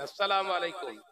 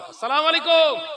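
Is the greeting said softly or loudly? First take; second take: softly; loudly. First: It is said at normal, softer volume. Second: It is said louder, with more force.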